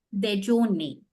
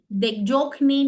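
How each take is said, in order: First: No K sound is pronounced inside the word. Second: A K sound is pronounced inside the word. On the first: The speaker calls it right. "K is silent" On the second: The speaker calls it wrong. "We won't say K. Dejokne no"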